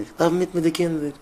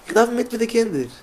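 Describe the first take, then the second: First: Said in the usual way. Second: High, slow, drawn-out emphasis on darf; emphatic. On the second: Shown as a demonstration. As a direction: stretch each word out high and slow, leaning on darf. Repeats phrase, then emphatic take. (אויסגעצויגן הויך, מיטן טראפ אויף darf)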